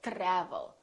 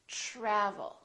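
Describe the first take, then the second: First: It begins with a plain t sound before r. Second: It begins with a soft ch-like sound before r. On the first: The speaker calls it wrong. "or travel" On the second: The speaker calls it right. "We say travel"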